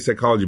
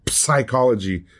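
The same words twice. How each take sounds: First: The initial p is silent; it starts with s. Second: The initial p is clearly pronounced before the s. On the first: The speaker calls it right. "We say psychology" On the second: The speaker calls it wrong. "we don't say psychology"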